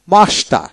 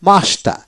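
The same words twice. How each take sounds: The two takes are said the same way.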